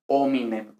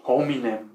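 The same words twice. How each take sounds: First: "hominem" starting straight on the O; silent H. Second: "hominem" with an audible aspirated H; sounded H. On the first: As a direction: drop the H of "hominem". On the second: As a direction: breathe an H onto the front of "hominem". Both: Shown as a demonstration. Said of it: "no se pronuncia la H".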